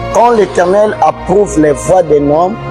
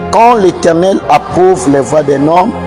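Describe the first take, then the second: The two takes are said the same way.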